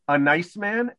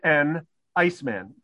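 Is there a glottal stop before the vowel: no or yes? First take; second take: no; yes. First: The sounds run together with no glottal stop. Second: A glottal stop separates the words before ice. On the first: A man who is kind. "One of them is nice" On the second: A man who sells ice. "One of them sells a frozen H2O"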